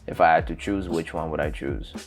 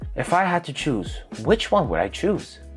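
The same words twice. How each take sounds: First: It is said flatly, like a robot. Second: It is said naturally, with real expression.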